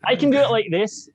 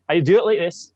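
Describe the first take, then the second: First: High, lightly hammed Scottish lilt; Scottish accent demo. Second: A second Scottish take, a bit higher; Scottish accent demo. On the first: Guest demonstrating his Scottish accent for the hosts. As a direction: show off a Scottish voice. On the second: Guest offering another Scottish take to choose from. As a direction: lilt it the other way. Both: Shown as a demonstration.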